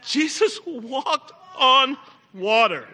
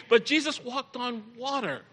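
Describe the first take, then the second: First: Jesus walked on water, drawn out slowly; slow, deliberate wonder; slow awed emphasis. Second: Said in the usual way. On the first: Shown as a demonstration.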